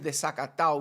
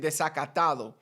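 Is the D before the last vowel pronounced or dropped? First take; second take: dropped; pronounced. First: The D before the last vowel is dropped. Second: The D before the last vowel is pronounced. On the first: "Always desacatado. We get rid, rid of the D" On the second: "We never say desacatado"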